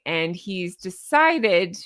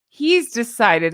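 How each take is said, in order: First: Sarcastic. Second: Slow, louder, mocking "he's decided"; sarcastic. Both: Real, not acted. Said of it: "I'm using that sarcastically".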